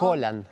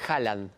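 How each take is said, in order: First: The first vowel sounds like an 'o'. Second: The first vowel sounds like an open 'a'. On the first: This follows the Norwegian pronunciation. The speaker calls it right. "Pero es Holland. ... se pronuncia como una O" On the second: This is how most people say it. The speaker calls it wrong. "Todo el mundo le dice Haaland. Me incluyo"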